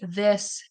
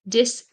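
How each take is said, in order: First: The word starts with a TH sound. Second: The word starts with a D sound. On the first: The speaker calls it right. "they'll say it correctly" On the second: The speaker calls it wrong. "when they are unable to say the sound, they'll say"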